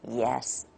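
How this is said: The pitch falls from a low start.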